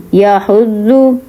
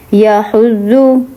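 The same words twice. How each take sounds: The two takes are said the same way.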